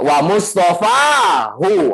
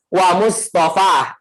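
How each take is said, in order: First: The word ends with a lengthened, voweled syllable. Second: The word stops without a final added vowel. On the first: The poem's meter requires this reading. "haruslah dibaca dengan mad dan harokat tentunya" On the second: This is the normal form when pausing. "Harusnya apa?"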